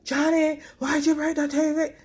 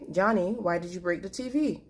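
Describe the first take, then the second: First: It is shouted loudly and angrily. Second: It is said in a firm, emphatic tone.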